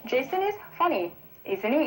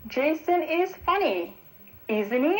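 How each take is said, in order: First: "Jason is funny" said slowly, then "Isn't he?" rising at the end; rising tag question. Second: "Jason is funny" said slowly, then "Isn't he?" rising at the end; slow, higher model sentence that lifts on "he"; rising tag question. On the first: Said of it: "이런 식으로 하면 되겠고요". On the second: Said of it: "이렇게 올려서 읽으면요". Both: Shown as a demonstration. Teacher models a tag question for listeners, rising tune.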